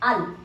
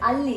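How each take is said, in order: First: The word is cut short to one syllable. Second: The word is said fully with two syllables. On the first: "in a sentence it will become al" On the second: "if you can recall, it's alli"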